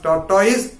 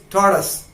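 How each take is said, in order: First: "tortoise" said with an OY in the last syllable; "tortoise" ending to rhyme with "noise"; mispronunciation demo. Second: "tortoise" with a short, weak last syllable, TOR-tus; "tortoise" ending in a reduced "-tus"; correct pronunciation. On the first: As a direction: say "tortoise" as tor-TOYS, like it is spelt. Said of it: "it is not pronounced as tortoise". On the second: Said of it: "That is the right pronunciation". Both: Shown as a demonstration.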